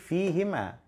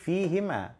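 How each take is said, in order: First: The vowel after the h is i. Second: The same.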